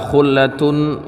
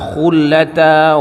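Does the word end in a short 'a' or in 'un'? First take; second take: un; a. First: The word ends in an 'un' sound. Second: The word ends in a short 'a' vowel. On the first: "mereka membaca dengan rafa'" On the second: "Qiraat yang lain dibacanya fathah"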